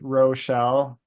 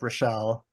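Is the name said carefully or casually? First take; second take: carefully; casually. First: The name is said slowly with clear sounds. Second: The name is said quickly and loosely. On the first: It is a formal introduction. "so it's very clearly like not Michelle" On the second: It is everyday talk. "if I'm just talking to her casually"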